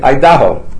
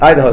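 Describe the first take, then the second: First: Idaho is said with a foreign, non-native accent. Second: Idaho is said with a native English pronunciation. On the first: The speaker calls it wrong. "he didn't know how to pronounce Idaho. So he kept on saying Idaho. He was an Israeli" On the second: The speaker calls it right. "You have to pronounce it"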